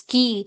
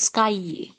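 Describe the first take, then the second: First: The vowel is a single pure sound. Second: The vowel glides from one sound to another. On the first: The speaker calls it wrong. "You won't pronounce it as ski" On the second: The speaker calls it right. "but it is sky"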